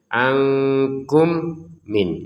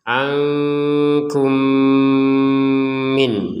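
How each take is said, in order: First: The two m sounds are kept separate. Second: The two m sounds merge with a nasal hum. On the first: The speaker calls it wrong. "Kalau tidak dimasukkan maka terbacanya nanti jelas" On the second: The speaker calls it right. "Dimasukkan dan didengungkan"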